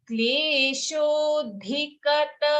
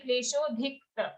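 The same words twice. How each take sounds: First: Chanted "kleshodhikata" keeping the a after k; full ka-ta. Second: "kleshodhikta" with k running straight into ta; dropped vowel. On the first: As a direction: sound every vowel of "kleshodhikata", slowly. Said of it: "Here a very common mistake". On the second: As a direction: skip the a between k and t in "kleshodhikta". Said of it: "very common mistake is we say". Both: Shown as a demonstration.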